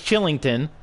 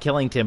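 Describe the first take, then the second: First: The name begins with a ch sound. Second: The name begins with a hard k sound. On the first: The speaker calls it right. "but it's Chillington" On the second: The speaker calls it wrong. "seeing that K, instinctively saying Killington"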